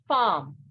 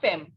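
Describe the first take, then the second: First: It is said with a French pronunciation. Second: It is said with an English pronunciation. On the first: The speaker calls it right. "wife is called femme" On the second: The speaker calls it wrong. "not femme. If we had to pronounce this word in English"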